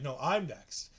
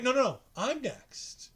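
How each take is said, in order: First: Tyler's voice, a lower, softer counter; Tyler, lower and quieter. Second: Ali's voice, eager and a bit higher. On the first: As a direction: answer back low and quiet. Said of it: "And Tyler Bates like". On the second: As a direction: push in first, slow and pitched up. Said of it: "And Ali's like". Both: Retold or imitated.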